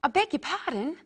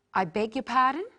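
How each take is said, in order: First: "I beg your pardon" higher, stress on "beg"; a formal model apology. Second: Said in the usual way. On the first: Shown as a demonstration. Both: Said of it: "Practice with me the different ways".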